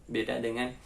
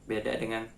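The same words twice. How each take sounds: The two takes are said the same way.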